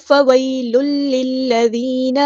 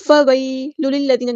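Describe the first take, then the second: First: فویل للذین slow, each doubled l pressed; careful doubled lams. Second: فویل للذین with the l sounds run together short; careless doubled lams. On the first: Teacher models correct reading, every lam clear in فویل للذین. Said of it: "اچھے سے سوچ سمجھ کے ادائیگی کرنی ہے". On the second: Teacher shows what not to read, lams skimmed in فویل للذین. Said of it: "نہیں پڑھنا". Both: Shown as a demonstration.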